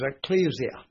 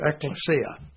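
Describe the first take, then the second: First: The word is pronounced in an English-style way. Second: The word is pronounced in the Greek way.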